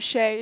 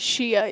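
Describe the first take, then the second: First: The name is said as one syllable. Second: The name is said as two syllables. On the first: The speaker calls it right. "there was this guy named Shay" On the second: The speaker calls it wrong. "she pronounced it Shia"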